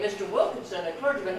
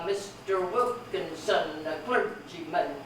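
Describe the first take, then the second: First: The final syllables are unstressed. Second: The final syllables are stressed. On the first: "has one stress on mist, one stress on wilk, and one stress on clergy" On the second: "He just forced me to stress those last syllables"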